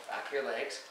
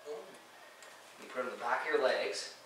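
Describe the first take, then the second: First: Said in the usual way. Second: Drawn out, hushed, leaning on your; slow hushed instruction; slow demo. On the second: Shown as a demonstration. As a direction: spell it out slowly under your breath.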